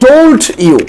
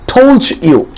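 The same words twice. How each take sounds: First: The d and y sounds stay separate. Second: The d and y blend into a j sound.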